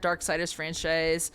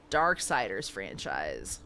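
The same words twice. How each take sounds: First: Said in the usual way. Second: Deep slow voice. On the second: Pretend.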